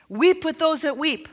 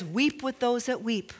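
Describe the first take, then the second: First: Said in the usual way. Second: Softer, reverent reading of Weep with those that weep; soft scripture quote. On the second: Shown as a demonstration. Pastor quoting the Bible to the congregation, soft and reverent.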